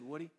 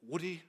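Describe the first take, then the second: First: Said in the usual way. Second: A weak, half-hearted Scottish "Woody."; failed Scottish accent. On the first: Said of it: "actually, it was a Scottish man". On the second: Retold or imitated. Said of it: "I can't do the Scottish accent".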